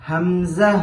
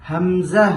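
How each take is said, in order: Both takes have the same delivery.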